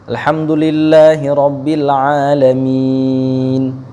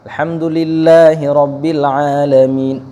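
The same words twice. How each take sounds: First: The last long vowel is held for four beats. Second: The last long vowel is held for two beats. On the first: "Kadang orang ada yang baca empat, sahih" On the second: "Kadang ada yang baca dua"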